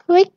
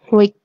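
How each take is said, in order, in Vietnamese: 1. Tiếng này không đọc thanh nặng. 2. Tiếng này đọc thanh nặng.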